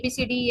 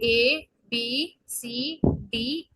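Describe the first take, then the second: First: The letters are run together quickly. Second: The letters are said slowly and separately. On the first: The speaker calls it wrong. "ऐसे नहीं ABCD एफ जी ऐसे करके नहीं" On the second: The speaker calls it right. "आप इसको धीरे धीरे ए बी सी डी ई एफ ऐसे करके"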